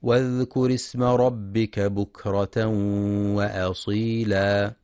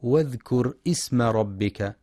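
First: Slow, drawn-out melodic tartil; slow Quranic recitation. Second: اسم with a sounded hamza i in the middle, marked wrong; faulty اسم with glottal stop. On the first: Acted. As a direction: chant the verse with measured tajweed. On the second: Shown as a demonstration. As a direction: show the mistake واذكر اسم with hamza. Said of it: "بإثبات الهمز".

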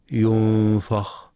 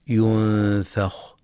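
First: ينفخ with a dark, thick "fa"; heavy fa mistake. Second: Slow ينفخ with held n and thin "fa"; light fa. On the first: Teacher showing what not to read, heavy fa in ينفخ. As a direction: darken the vowel after f in ينفخ. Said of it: "بتفخيم الفاء". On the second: Teacher showing the correct word, light fa in ينفخ. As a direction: keep the vowel after f in ينفخ light. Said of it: "لترقيق الفاء". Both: Shown as a demonstration.

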